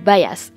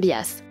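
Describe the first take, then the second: First: The word is pronounced with an English accent. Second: The word is pronounced the French way.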